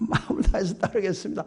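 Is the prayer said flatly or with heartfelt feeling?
heartfelt. It is said with heartfelt, vivid feeling.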